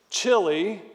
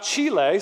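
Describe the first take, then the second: First: "Chile" said as CHILL-ee; "Chile" anglicized, ending in "ee"; English pronunciation. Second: "Chile" said as CHEE-lay; "Chile" the Spanish way, final e sounded "ay"; Spanish pronunciation. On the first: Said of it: "like we're English speakers". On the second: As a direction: say "Chile" with a long first "ee", ending "ay". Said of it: "It's not Chile". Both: Shown as a demonstration.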